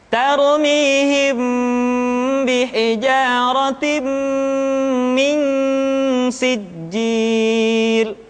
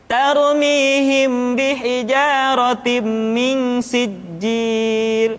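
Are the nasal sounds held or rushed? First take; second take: held; rushed. First: The nasal sounds are held long and unhurried. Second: The nasal sounds are cut short and hurried. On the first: The speaker calls it right. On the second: The speaker calls it wrong.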